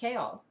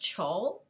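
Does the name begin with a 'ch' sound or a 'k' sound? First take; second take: k; ch. First: The name begins with a 'k' sound. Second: The name begins with a 'ch' sound. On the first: The speaker calls it right. "but it's pronounced Kaol" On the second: The speaker calls it wrong.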